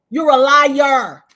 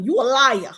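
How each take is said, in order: First: "liar" stretched long and loud; slow, loud hit on "liar"; drawn-out accusation. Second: Said in the usual way. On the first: Retold or imitated. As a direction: hammer "liar" home, dragging it out. Accusation repeated louder and drawn out.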